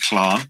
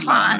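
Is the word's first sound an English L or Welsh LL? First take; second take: Welsh LL; English L. First: It starts with the Welsh breathy LL sound. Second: It starts with a plain English L sound. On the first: "if you want to try and pronounce it in Welsh" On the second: "but you can say Larn. That's totally fine"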